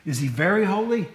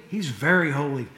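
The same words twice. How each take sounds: First: Very leaned on, asking; teacher's demo of very; stress on very. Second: Very set down low and firm; low answering demo of very; stress on very. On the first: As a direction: question with weight on very. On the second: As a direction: answer with weight on very. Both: Shown as a demonstration. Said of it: "The Hebrew don't have a word for very".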